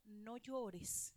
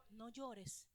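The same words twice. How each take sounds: First: Soft, tender "No llores" to a grieving mother; gentle no llores. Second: Softer still, hushed "No llores"; gentle no llores. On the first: Preacher softly voicing Jesus to the widow, tender. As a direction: say "No llores" softly, to calm her. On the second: Jesus comforting the widow, hushed and tender. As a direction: hush "No llores" like calming a crying mother. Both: Shown as a demonstration. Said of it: "¿Cómo le dijo?".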